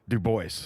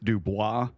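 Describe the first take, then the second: First: The name is said the way locals say it. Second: The name is said the way outsiders expect. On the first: This is how it is actually said there. The speaker calls it right. "but it's actually Du Bois" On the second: This is how people assume it is said. The speaker calls it wrong. "You think it's Dubois"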